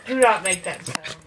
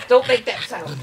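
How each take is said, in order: First: "not" hit hard and low, slowed; stress on NOT. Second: Loud firm order; stern command. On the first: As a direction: split "Do not" and punch "not". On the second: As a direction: scold like a stern owner. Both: Retold or imitated. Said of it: "He says".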